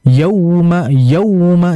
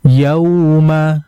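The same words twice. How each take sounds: First: Yauma with a push, higher and punched; wrong: yauma pushed hard; jolted yauma. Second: Correct: smooth yauma; gentle yauma. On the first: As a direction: hit yauma with a jolt. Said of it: "Jadi jangan dibaca". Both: Shown as a demonstration.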